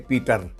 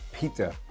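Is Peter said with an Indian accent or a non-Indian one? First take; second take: Indian; non-Indian. First: Peter is said the Indian way. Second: Peter is said in the local, non-Indian way.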